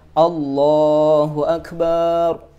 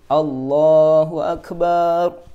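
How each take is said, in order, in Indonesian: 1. Vokal pada suku kata terakhir dipanjangkan. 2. Vokal pada suku kata terakhir dipanjangkan.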